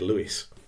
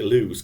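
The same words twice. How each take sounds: First: The name is said unlike its spelling. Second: The name is said as it is spelled. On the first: "but I'm going to say Lewes" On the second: "you might pronounce it Lewes, because his name is L E W E S"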